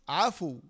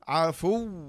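First: The final letter is stopped plainly, without emphasis. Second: The final doubled letter is pressed with emphasis. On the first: "السكون فقط" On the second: "قاعدة نبر لابد أن تنبر عليها كذا"

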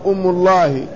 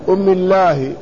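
First: The m is followed by a u vowel. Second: The m is followed by an i vowel. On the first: "وحدها مضمومة" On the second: "وربما كسروها"

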